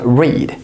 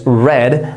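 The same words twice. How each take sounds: First: The vowel is long, rhyming with need. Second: The vowel is short, rhyming with bed. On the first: It is the present tense form. "in the present we pronounce it as read" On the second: It is the past tense form. "but in the past that is read"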